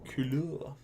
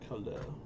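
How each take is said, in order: First: It is said with a fancy French-like accent. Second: It is said in a plain English way.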